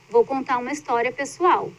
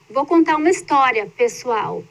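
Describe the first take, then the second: First: The phrase runs on with no pause before pessoal. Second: There is a pause before the word pessoal. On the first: The story is about the speaker's own life. "se eu não coloco a vírgula aqui" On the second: The speaker is addressing the listeners as everyone. "pessoal é um aposto"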